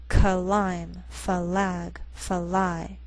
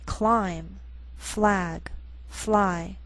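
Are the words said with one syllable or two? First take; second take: two; one. First: Each word gets an extra vowel, two syllables. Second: Each word is said as one syllable. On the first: The speaker calls it wrong. "Don't say" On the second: The speaker calls it right. "So we say"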